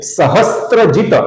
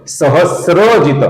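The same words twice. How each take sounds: First: सहस्त्रजित with a त्र cluster, as in स्त्री; wrong pronunciation. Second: सहस्रजित with a plain स्र, no त, said slowly; correct pronunciation. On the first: Teacher showing viewers the common mistake, सहस्त्रजित. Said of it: "ऐसा गलत उच्चारण". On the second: Teacher modelling the right सहस्रजित for viewers, slow and clear. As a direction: slowly spell out सहस्रजित as स plus र. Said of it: "इसका सही उच्चारण है सहस्रजित". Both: Shown as a demonstration.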